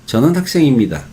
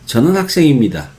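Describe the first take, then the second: Both takes have the same delivery.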